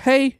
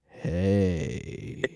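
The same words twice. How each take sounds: First: The word hey is short and plain. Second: The word hey is long and drawn out.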